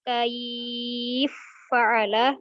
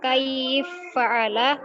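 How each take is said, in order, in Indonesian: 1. Vokal panjang ditahan selama empat ketukan. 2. Vokal panjang ditahan selama dua ketukan.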